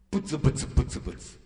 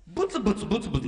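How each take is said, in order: First: A voiceless, quieter mock grumble, fading off; muttered grumble. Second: A fast, rattled-off mock grumble; quick grumble. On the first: Preacher mimics a grumbling coworker, voiceless mock mutter. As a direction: murmur it under your breath like a sulky coworker. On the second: Preacher mimics a grumbling coworker, fast mock grumble.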